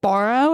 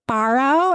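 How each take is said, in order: First: "Borrow" as BORE-oh, rising; own pronunciation of borrow. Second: "Borrow" as BAR-oh, higher pitched; kindergartner's pronunciation of borrow. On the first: Teacher repeats to kindergartner, "Borrow" said BORE-oh. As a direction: say "Borrow" with a rounded OR vowel. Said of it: "That's how I say it". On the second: Kindergartner corrects the teacher, "Borrow" said BAR-oh. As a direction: say "Borrow" with an open AH vowel. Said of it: "That's how you say it". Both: Retold or imitated.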